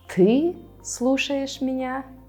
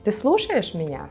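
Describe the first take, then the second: First: The first word carries the emphasis. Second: The middle word carries the emphasis. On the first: It expresses disbelief that this person is the one listening. "This time you will emphasize the pronoun ты" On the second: It asks whether the person is listening at all. "you will emphasize the word listen, слушать"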